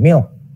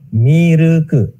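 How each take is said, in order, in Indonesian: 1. Diucapkan sebagai satu suku kata, berakhir dengan k. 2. Diucapkan dengan tambahan vokal: mi-ru-ku. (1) "istilah dari bahasa asing milk" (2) "Masuk ke Jepang tulis pakai katakana jadinya milk"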